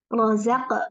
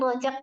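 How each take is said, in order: First: The middle consonant sounds like 'z'. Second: The middle consonant sounds like 'j'. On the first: The speaker calls it right. "Jelaskan lagi. Jangan rojak ya" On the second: The speaker calls it wrong. "Ini rojak tadi bacanya"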